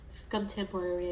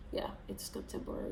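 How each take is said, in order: First: Said in the usual way. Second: Quick, whispered, unsure; doubtful whisper. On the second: Real, not acted. Second-guessing herself to viewers, whispered and hurried. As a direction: mutter it fast to yourself. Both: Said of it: "Why am I doubting myself?".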